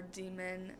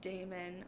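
First: "demon" with first syllable like "dee"; "demon" pronounced DEE-mən. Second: "daemon" with first syllable like "day"; "daemon" pronounced DAY-mən. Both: Shown as a demonstration. Contrasts two versions of the word.

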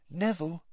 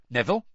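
First: Soft, higher-pitched, gentle call; gentle, coaxing use of a friend's name; gently. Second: Said in the usual way. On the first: A narrator's reading. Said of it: "Hermione said gently".

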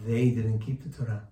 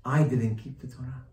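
First: Puzzled emphasis on "they"; stress on THEY. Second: "I" stressed, the rest falling away. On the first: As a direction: question the word "they". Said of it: "What does that mean". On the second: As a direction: put the weight on "I". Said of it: "He should have said". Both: Shown as a demonstration.

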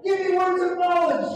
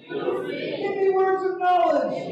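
First: Higher, shouted cry; crying out for words of knowledge; shouted prayer. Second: Slow, drawn-out, higher plea; pleading slowly for words of knowledge; slow prayer. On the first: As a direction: shout it to heaven. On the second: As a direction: draw each word out as a prayer. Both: Shown as a demonstration. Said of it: "prayer line led for congregation".

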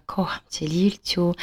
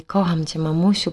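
First: Soft retold whisper to the baby. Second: Said in the usual way. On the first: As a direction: hush it like over a sleeping baby. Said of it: "szeptem powiedziała". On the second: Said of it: "a potem powiedziała do mnie".

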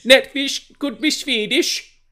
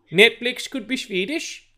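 First: Much higher, slow, loud mock Swedish Netflix voice; mock Swedish accent. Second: Much higher, slow mock Swedish Netflix voice; mock Swedish accent. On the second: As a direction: repeat it in the same silly high Swedish accent, slowly. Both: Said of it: "That wasn't a Swedish accent".

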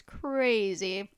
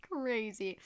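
First: Said in the usual way. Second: Laughing. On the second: Real, not acted. Repeating it while laughing.

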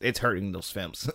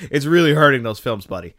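First: Said in the usual way. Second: Louder, higher, laughing through REALLY; laugh, then hit "really" hard and high; real amused exasperation, stressing "really"; laughing emphasis. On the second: Real, not acted. Laughing, emphatic repeat of criticism.

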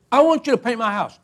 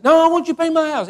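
First: Said in the usual way. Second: Higher-pitched pleading insistence; insistent retold request. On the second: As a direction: push back, refusing to take no. Neighbour insists after being refused.

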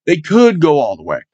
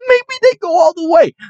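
First: Said in the usual way. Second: High, giddy take on the line; excited hype. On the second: Real, not acted. Fan repeating his playoff hope, giddy and high. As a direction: lift "Maybe they go all the way" up high, almost squealing.

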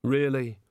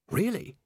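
First: Barely interested, falling at the end; dejected. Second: High, hopeful lift on the question; suddenly interested; brightening. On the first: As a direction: glum one-word reply, little lift. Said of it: "with his head in his hands". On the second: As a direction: perk up at a glimmer of hope. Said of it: "Rincewind brightened". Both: A narrator's reading.

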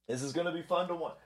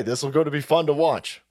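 First: Much softer, slightly quicker repeat; hushed aside. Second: Said in the usual way. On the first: Real, not acted. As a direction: say it under your breath, quickly.

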